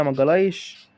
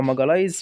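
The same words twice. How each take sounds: First: ماجالايش ending in a "sh" sound; alternative name pronunciation. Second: ماجالايز ending in a "z" sound; alternative name pronunciation. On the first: Gamer guessing at a player's name, ماجالايش ending in sh. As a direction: say ماجالايش with a final sh. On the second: Gamer offering another guess at the name, ماجالايز ending in z. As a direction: say ماجالايز with a final z. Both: Shown as a demonstration. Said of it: "مش عارف اسمه بيتنطق ازاي".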